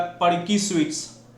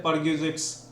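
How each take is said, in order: First: "परकी स्वीट्स" said as perky sweets instead of "परक्यूजिट्स"; mispronounced word. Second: "परक्यूजिट्स" said as per-kyoo-zits, one word; correct pronunciation. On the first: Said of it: "But कोई आदमी इसको बोल रहा है परकी स्वीट्स". (गलत उच्चारण "परकी स्वीट्स") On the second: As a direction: say "परक्यूजिट्स" cleanly as perquisites. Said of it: "क्या बोलते हैं?". (सही उच्चारण "परक्यूजिट्स") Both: Shown as a demonstration.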